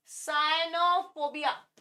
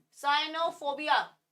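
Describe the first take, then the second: No difference in how they are said.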